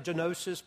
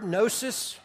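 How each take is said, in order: First: The initial G is pronounced. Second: The initial G is silent. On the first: The speaker calls it wrong. "some people say genosis, but just don't" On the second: The speaker calls it right. "you don't pronounce the G"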